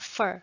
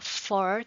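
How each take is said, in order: First: The word has a short, reduced vowel. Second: The word has a full, rounded vowel. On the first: The speaker calls it right. "like short हो जाएगा" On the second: The speaker calls it wrong. "for की जगह"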